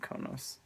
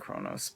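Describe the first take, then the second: First: No r sound follows the first k sound. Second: An r sound follows the first k sound. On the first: The speaker calls it wrong. "but I've always said Konos" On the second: The speaker calls it right. "I think it's actually Kronos"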